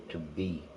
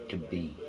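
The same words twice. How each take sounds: No difference in how they are said.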